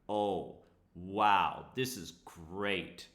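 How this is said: It is said with a sarcastic tone. The speaker is actually annoyed. The speaker calls it right. "This is very deep sarcasm"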